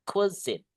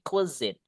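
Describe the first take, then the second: First: The second syllable begins with a buzzing z sound. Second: The second syllable begins with a buzzing z sound.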